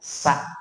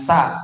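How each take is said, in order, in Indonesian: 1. S ringan, bibir melebar. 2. S berat, bibir tidak melebar. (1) "dua sudut bibir kita ee, melebar" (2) "Jangan sa. Kalau sa begini, bibirnya enggak nyengir"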